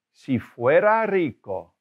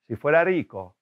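First: "Si fuera rico" said slowly, clear; slow teacher model of "Si fuera rico". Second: Said in the usual way. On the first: Shown as a demonstration. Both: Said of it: "If phrases".

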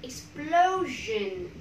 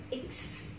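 First: Said in the usual way. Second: Syllable by syllable. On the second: Shown as a demonstration. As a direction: stretch explosion out in separate syllables. Teacher breaks word into syllables.

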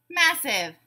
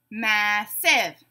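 First: Said in the usual way. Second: "Massive" split in two, mass-ive; syllable by syllable. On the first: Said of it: "you tell me the whole word". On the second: Shown as a demonstration. Teacher giving a word to blend, said syllable by syllable. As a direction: break "Massive" into two separate beats. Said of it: "say the syllables in a word".

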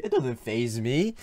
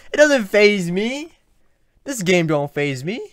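First: Said in the usual way. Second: Louder and higher bravado; mock tough. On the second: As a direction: puff it up like a tough guy.

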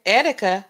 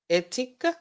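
First: "Etika" with the first syllable stressed, falling. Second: "Etika" with the middle syllable stressed, rising; stress on second syllable. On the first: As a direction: hit the start of "Etika", then drop. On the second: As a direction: ask "Etika?", leaning on the "ti". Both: Shown as a demonstration. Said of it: "put the emphasis on the right syllable".

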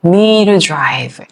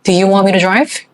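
First: "me to drive" run together as one flowing sound; linked pronunciation. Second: Slow, rising on "drive"; slow drill take. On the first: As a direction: blend "me to drive" smoothly, the t softened. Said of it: "정확한 발음보다는 me to drive". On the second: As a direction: model it slowly with a lift at the end. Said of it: "do 발음입니다". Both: Shown as a demonstration.

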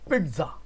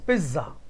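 First: पिज्जा with a light t, peet-za; पिज्जा as pitza; correct pizza. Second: पिज्जा said as plain piza, no t sound; पिज्जा as piza without the t; wrong pizza. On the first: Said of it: "इसकी pronunciation होगी पिज्जा". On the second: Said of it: "तो बेटा ये गलत है". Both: Shown as a demonstration.

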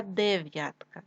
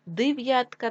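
First: Said in the usual way. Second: Дев'ятка said as Див'ятка; short i after Д in Дев'ятка; и in first syllable. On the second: Shown as a demonstration. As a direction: make Дев'ятка start with див. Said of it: "нам потрібно вставити або".

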